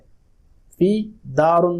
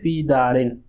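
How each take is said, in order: First: The last word ends with an 'un' sound. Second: The last word ends with an 'in' sound. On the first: The speaker calls it wrong. "ये गलत है, फी दारुन नहीं" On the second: The speaker calls it right. "बल्कि फी दारिन"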